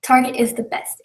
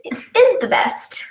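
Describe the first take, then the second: First: Said in the usual way. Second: "is" pitched high and drawn out; stress on "is". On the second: Real, not acted. Host insisting on a favourite store, high stress on "is". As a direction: lean hard and slowly on "is". Repeats claim with emphasis.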